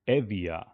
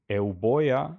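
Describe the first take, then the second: First: The name has a V sound in the middle. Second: The name has a B sound in the middle. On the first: This is the later pronunciation. "B becomes V" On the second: This is the ancient pronunciation. "as it was pronounced in uh, in ancient Greek"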